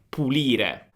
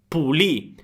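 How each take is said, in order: First: The word is said in full, ending in '-re'. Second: The word is cut short, ending on stressed 'ì'. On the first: This is the full standard form. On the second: This is the clipped form heard around Rome.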